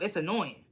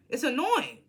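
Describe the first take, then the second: First: Said in the usual way. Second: It's annoying repeated higher, annoying leaned on; emphatic repeat. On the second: Shown as a demonstration. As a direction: hit It's annoying harder the second time.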